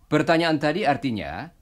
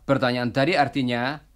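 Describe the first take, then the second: The two takes are said the same way.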